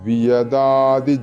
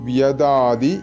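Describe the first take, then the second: No difference in how they are said.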